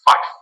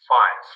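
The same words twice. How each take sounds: First: The word ends with an f sound. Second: The word ends with a v sound.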